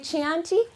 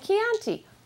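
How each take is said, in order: First: It starts with a ch sound. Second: It starts with a hard k sound. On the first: The speaker calls it wrong. "every time he said it wrong" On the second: The speaker calls it right. "I'd step in and say it right"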